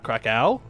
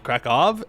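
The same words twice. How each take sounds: First: The final w is pronounced like a w. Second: The final w is pronounced like a v. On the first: The speaker calls it wrong. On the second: The speaker calls it right. "the W's sound like a V"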